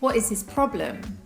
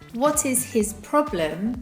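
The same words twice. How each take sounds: First: The h in 'his' is dropped. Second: The h in 'his' is clearly pronounced.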